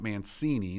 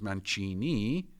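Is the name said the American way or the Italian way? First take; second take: American; Italian. First: The name is said with an American pronunciation. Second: The name is said with an Italian pronunciation. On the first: The speaker calls it wrong. "not Mancini. That's you American sounders" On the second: The speaker calls it right. "C I is a soft sound. So that's why my name is Mancini"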